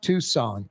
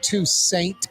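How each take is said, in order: First: The last syllable sounds like 'sahn'. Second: The last syllable rhymes with 'saints'. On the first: The speaker calls it right. "like like Tucson, Arizona, maybe with a little D or T sound at the end" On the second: The speaker calls it wrong. "like the Saints"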